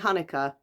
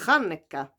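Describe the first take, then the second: First: It begins with a plain h sound. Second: It begins with a throaty ch sound. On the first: The speaker calls it wrong. "You can't just say Hanukkah" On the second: The speaker calls it right. "you've got to put the ch"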